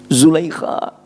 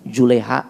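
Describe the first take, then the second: First: The middle consonant is a harsh kh. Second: The middle consonant is a soft h.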